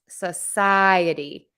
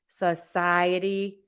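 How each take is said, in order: First: The first syllable has a reduced schwa vowel. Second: The same.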